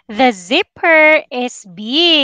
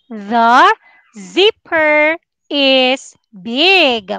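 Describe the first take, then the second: First: It is said faster. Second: It is said at a normal pace.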